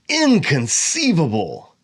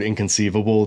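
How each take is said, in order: First: The word is said in a theatrical, ironic way. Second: The word is said in a plain, neutral way. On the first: The speaker is quoting a film character ironically. "if I say it in a certain way" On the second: It simply means unthinkable. "In everyday language"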